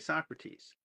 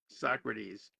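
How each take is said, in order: First: The middle T is crisp and strongly released. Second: The middle T is softened, almost like a D. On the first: The speaker calls it right. "I want to hit that hard T" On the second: The speaker calls it wrong. "I feel like I'm becoming Canadian or something"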